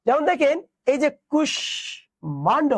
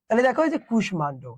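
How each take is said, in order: First: কুষ্মাণ্ড drawn out slowly, higher, syllable by syllable; slow model pronunciation. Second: Said in the usual way. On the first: Shown as a demonstration. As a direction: spell out কুষ্মাণ্ড slowly for the class.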